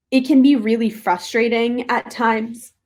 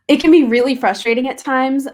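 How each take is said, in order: First: Talking through hiccups; hiccuping between words. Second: Said in the usual way. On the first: Real, not acted. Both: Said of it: "Sorry, I have the hiccups now".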